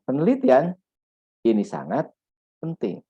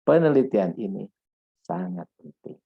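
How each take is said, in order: First: There is a pause after the first word. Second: There is no pause after the first word. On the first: The speaker calls it wrong. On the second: The speaker calls it right.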